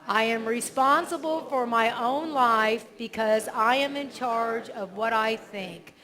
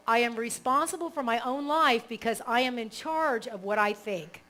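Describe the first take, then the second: First: Repeated affirmation. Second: Affirmation read. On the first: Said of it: "[name] can repeat it". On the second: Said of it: "Okay, so". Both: Shown as a demonstration.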